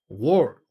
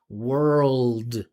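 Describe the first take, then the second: First: The final L and D sounds are dropped. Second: The final L and D sounds are clearly voiced. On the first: The speaker calls it wrong. "That's not really any word there" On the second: The speaker calls it right. "he's got to continue his vibration"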